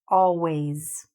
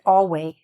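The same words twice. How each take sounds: First: The final S sound is clearly pronounced. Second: The final S sound is left off. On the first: The speaker calls it right. "So let's repeat this word always" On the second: The speaker calls it wrong. "students forget to add the S... it doesn't sound like it"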